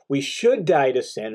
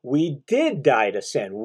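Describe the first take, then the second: First: Said in the usual way. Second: "did" leaned on, slow and deliberate; slow, firm weight on "did"; stress on did. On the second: Shown as a demonstration. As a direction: slowly press the word "did" as a fact. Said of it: "This is a statement of fact".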